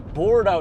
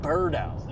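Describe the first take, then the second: First: The first syllable sounds like 'board'. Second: The first syllable sounds like 'bird'. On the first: The speaker calls it right. "It's Bordeaux, like board" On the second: The speaker calls it wrong. "I've been calling him Birdo, like B U R R D O"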